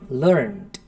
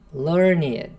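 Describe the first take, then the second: First: The word is said as one syllable. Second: The word is said as two syllables. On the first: It is the past form of the verb learn. "esse som, porque é verbo" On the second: It describes a well-read, educated person. "um adjetivo"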